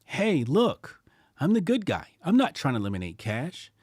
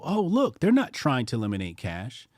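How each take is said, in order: First: Hammed-up "good guy" voice, higher on "Hey, look, I'm the good guy"; mock good guy. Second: Naive onlookers. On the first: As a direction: sell it like a fake-friendly government. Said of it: "Nah, it's more like". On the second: Retold or imitated. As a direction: play the gullible public falling for it. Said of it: "many people look at this and they go".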